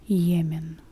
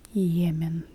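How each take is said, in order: Both takes have the same delivery.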